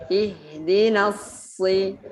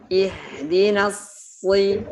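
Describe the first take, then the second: No difference in how they are said.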